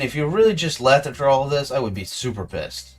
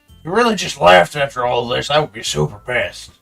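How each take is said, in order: First: It is said in the speaker's plain voice. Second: It is said in a put-on redneck accent. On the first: The speaker calls it wrong. "I forgot to say that in the redneck voice" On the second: The speaker calls it right. "Try this again"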